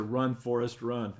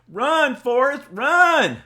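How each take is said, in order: First: Said in the usual way. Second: Loud high drawn-out yell; urgent calling out. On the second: Shown as a demonstration. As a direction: holler it slowly at full volume, way up high. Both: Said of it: "That's the way it's supposed to be done".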